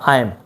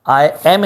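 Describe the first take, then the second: First: The two words blend into one short syllable. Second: Both words are said separately and in full. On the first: "बोला आई एम" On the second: "आई एम नहीं बोला मैंने"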